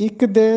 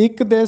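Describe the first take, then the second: The two takes are said the same way.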